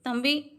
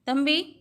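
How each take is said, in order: The two takes are said the same way.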